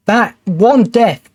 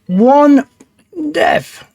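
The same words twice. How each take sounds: First: Slow, weighted "one death"; stressed. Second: "one death" pitched way up, strained; "one" pushed high and long, "death" dropping; squeaky exasperated stress. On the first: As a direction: lean hard on "one" with slow disbelief. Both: Real, not acted. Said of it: "I am getting frustrated".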